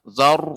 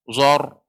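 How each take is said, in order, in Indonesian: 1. Vokal itu diucapkan terbuka, tanpa bibir membulat. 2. Vokal itu diucapkan dengan bibir membulat dan maju. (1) "enggak, zar" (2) "tidak boleh monyong"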